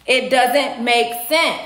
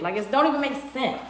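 First: "It doesn't make sense" very slow, word by word; emphatic repetition. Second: Fast, softer, thrown away; quick dismissal. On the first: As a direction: space out every word, leaning on "sense". Repeats point emphatically, word by word. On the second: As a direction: toss it off quickly under the rant. First take, said in passing. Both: Real, not acted.

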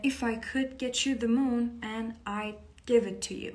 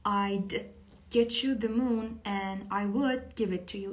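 First: Slow lyric. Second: Slow clear lyric. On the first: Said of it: "قبلاً با هم خونده بودیم". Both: Shown as a demonstration.

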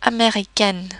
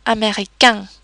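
First: "américaine" with the final N clearly sounded; non-nasal ending. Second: "américain" ending on a nasal vowel, no N; nasalized ending. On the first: Teacher shows the word with E, "américaine" with N sounded. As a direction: end "américaine" on a plain vowel plus N. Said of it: "with an E at the end". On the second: Teacher shows the word without E, "américain" with nasal ending. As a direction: let "américain" end through the nose, N silent. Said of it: "did not have an E at the end". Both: Shown as a demonstration.

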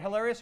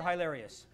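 First: Hilarious said hel-AIR-ious with a short e; the first take of hilarious as hel-AIR-ious; hel pronunciation. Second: Hilarious said high-LAIR-ious with a long i; the second take of hilarious as high-LAIR-ious; high pronunciation. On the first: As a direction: start hilarious with hel, not high. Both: Shown as a demonstration. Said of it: "Is it hilarious or hilarious?".

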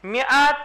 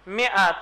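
First: میعت said as "miat", rising at the end; میعت pronounced "mi-at" with a lifted end; reading the Hebrew word. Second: میعت said as "miat", falling at the end; میعت pronounced "mi-at" with a settling fall; reading the Hebrew word. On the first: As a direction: sound out میعت slowly as "mi-at", tune going up. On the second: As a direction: say میعت as "mi-at", letting the tune drop. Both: Shown as a demonstration.

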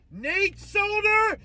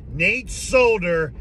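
First: Very high and slow; high drawn-out mocking call; taunting sing-song. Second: Said in the usual way. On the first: Real, not acted. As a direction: sing his name out mockingly. Taunting departing player.

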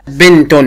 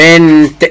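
First: بنت with a sounded "-tun" ending, bintun; voweled ending. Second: بنت ending on a bare t, no vowel; sukun ending. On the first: Teacher showing a pupil the voweled word, بنت as bintun. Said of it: "لو مسحت التشكيل". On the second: Teacher showing a pupil sukun, بنت as bint. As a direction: close بنت on a released t. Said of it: "وهخليها سكون". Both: Shown as a demonstration.

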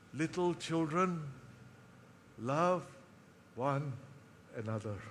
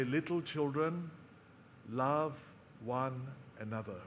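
First: Lightly voiced old apostle, words dying away; frail old man. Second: Put-on softer, faint old man's voice; lightly voiced aging apostle, gathering his last strength; frail old man. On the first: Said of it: "he would muscle his strength just enough". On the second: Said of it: "in his frailty, he would muscle whatever strength he had".

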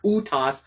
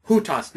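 First: "utas" begun straight on the u vowel; missing H. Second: "hutas" opened with an audible H; rough breathing. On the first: Teacher showing the mistake, "utas" without its initial H. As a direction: drop the H, starting "utas" on a bare u. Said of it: "hutas, not utas". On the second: Teacher contrasting right with wrong, "hutas" with an initial H. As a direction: sound the H before the u in "hutas". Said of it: "add that H in front of it". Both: Shown as a demonstration.

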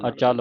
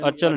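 First: ਅਚਲ with a long "aa" after ch, "a-chaal"; long second vowel. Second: ਅਚਲ with a short, quick second vowel "a-chal"; wrong short vowel. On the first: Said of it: "ਅਚਲ ਪੜ੍ਹਨਾ". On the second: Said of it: "ਅਚਲ ਨਹੀਂ ਪੜ੍ਹਨਾ". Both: Shown as a demonstration.

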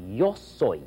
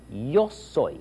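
No difference in how they are said.

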